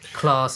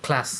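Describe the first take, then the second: First: It is said in a posh Queen's English accent. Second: It is said in a plain, non-posh accent.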